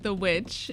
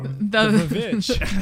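First: The word begins with a plain W sound. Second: The word begins with a V-like sound.

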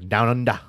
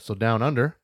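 First: It is said in a put-on Australian accent. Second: It is said in a plain American accent. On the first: The speaker calls it right. "That sounded really, really bad" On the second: The speaker calls it wrong. "You said it wrong"

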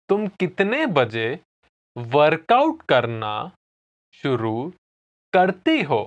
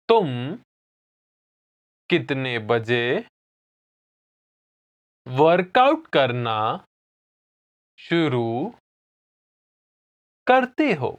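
First: It is said at normal speed. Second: It is said slowly.

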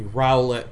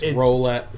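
First: The first syllable sounds like owl. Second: The first syllable sounds like roll. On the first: The name plays on the word owl. "if you say it with owl" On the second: The name is read as ordinary spelling. "if you say it normally"

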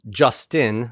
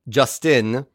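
First: The vowel in the name is reduced. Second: The vowel in the name is fully pronounced. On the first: The speaker calls it wrong. "not Justin" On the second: The speaker calls it right. "I'm going to pronounce that vowel"

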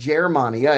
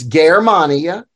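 First: The first G is soft, like English J. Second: The first G is hard, as in go. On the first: The speaker calls it wrong. "It's not Germania" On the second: The speaker calls it right. "C and G are always hard"

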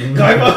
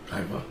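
First: It is shouted loudly. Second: It is said faintly, fading away.

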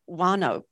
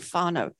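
First: The word begins with a W sound. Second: The word begins with an F sound. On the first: The speaker calls it wrong. "many people who are new to Māori would read whānau" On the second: The speaker calls it right. "they pronounce the WH that looks like WH as F"

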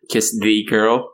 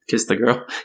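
First: It is said with a Japanese accent. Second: It is said with an American English accent. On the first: "they sang it more like with a Japanese accent" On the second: "instead of"

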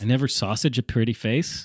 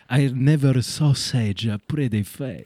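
First: Sausage is said the ordinary way, as one word. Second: Sausage is split into 'saw' and 'sage'.

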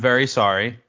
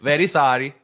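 First: It is said in the speaker's normal voice. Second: It is said in a put-on Borat accent.

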